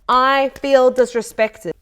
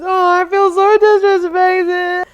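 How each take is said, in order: First: It is said plainly and calmly. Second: It is said tearfully, as if crying.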